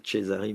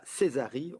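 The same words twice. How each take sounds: First: Cesari said "Tchézari", with an opening ch; Italian-style pronunciation. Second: Said in the usual way. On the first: Shown as a demonstration. Moderator admits how he wanted to say the researcher's name, Cesari as Italian "Tchézari". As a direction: say Cesari the Italian way, starting "Tché". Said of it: "moi je voulais dire".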